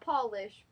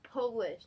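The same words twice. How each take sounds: First: The first vowel sounds like in 'doll'. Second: The first vowel sounds like in 'Poland'. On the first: It refers to something shiny or cleaned. The speaker calls it wrong. "not Polish" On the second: It refers to someone from Poland. The speaker calls it right. "It's Polish, Like you go Poland"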